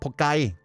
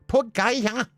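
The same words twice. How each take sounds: First: The word is said plainly with nothing added. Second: The word ends with an added exclamation sound. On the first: This is the actual form of the word. "It was never just Pokai" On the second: This is how friends always said it. "the exclamation at the end"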